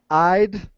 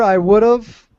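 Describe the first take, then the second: First: 'I would' is shortened to one syllable, 'I'd'. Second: 'I would' is said in full as two words.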